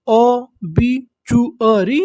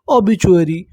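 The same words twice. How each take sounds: First: ओबीचुअरी drawn out slowly, syllable by syllable. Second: Said in the usual way. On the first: Shown as a demonstration. Teacher spells the word out slowly for students. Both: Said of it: "तो देखिए हमारी meaning क्या बनी".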